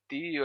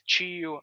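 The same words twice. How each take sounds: First: The first sound is a plain t. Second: The first sound is like 'ch'. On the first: This is not how the other accent says it. "a gente não diz tio" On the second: This is how the other accent says it. "a gente diz tio"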